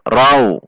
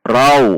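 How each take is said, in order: No difference in how they are said.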